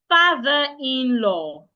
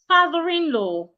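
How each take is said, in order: First: The words are said apart without linking. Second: The r sound runs straight into the next word. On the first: The speaker calls it wrong. "instead of" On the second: The speaker calls it right. "I would link both"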